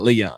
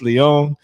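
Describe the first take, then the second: First: The name is said in plain English style. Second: The name is said in accented Spanish style. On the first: The speaker calls it wrong. "It's not Leon" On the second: The speaker calls it right. "I think she had an apostrophe over the Leon, so I had to, you know, say it differently"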